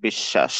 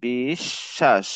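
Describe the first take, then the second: First: Said in the usual way. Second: বিশ্বাস slowly split as "bish-shash"; doubled-consonant demo. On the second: Shown as a demonstration. Teacher showing learners how বিশ্বাস is said, slow doubled-consonant demo. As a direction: draw out বিশ্বাস, holding the doubled sh. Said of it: "বিশ্বাসের উচ্চারণ হবে".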